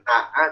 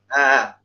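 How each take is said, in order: First: Both glottal stops are pronounced fully and separately. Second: The second glottal stop is softened into a glide. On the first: The speaker calls it wrong. "Jadi bukan a, a" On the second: The speaker calls it right. "tapi a"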